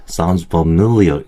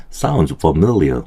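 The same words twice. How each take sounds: First: Said in the usual way. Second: "sounds familiar" with a run-up into MIL; lead-in before stress. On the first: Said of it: "이거보다는 sounds familiar". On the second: Shown as a demonstration. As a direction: dip on "fa", then lift into the stressed syllable of "familiar". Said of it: "진입 신호가 들어가는 게".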